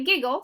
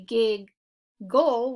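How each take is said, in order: First: Said in the usual way. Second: "giggle" drawn out as gig... gull; split syllables. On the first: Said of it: "we say giggle". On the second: Shown as a demonstration. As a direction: say "giggle" slowly in two separate chunks, both g's sounded. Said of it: "We don't say giggle".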